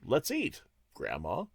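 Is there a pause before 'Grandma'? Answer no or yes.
yes. There is a pause after 'eat'. Grandma is being invited to eat. "adding that comma right after eat"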